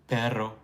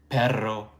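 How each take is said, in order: The two takes are said the same way.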